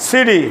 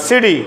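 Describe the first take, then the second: The two takes are said the same way.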